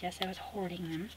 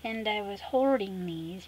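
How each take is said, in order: First: Softer, leaning on "I"; stress on I. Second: Slow, leaning on "hoarding"; stress on hoarding. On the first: Confirming to viewers she hoarded them, stress on I. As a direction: own it by pressing "I". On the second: Admitting to viewers she kept the stickers, stressing hoarding. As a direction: draw out "hoarding" as a confession. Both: Real, not acted.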